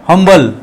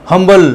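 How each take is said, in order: The two takes are said the same way.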